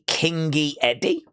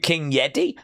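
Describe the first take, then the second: First: The y sound ends the first word. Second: The y sound begins the second word. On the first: The name is Kingy plus Eddie. "but you could be Kingy Eddie" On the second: The name is King plus Yeti. "I've always called you King Yeti"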